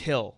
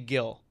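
First: The name begins with a breathy H sound. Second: The name begins with a hard G sound. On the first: The speaker calls it right. "It's Hill. With an H" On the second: The speaker calls it wrong. "just don't say Gil"

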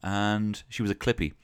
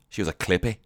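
First: It is said in the speaker's plain accent. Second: It is said in a put-on Glaswegian accent.

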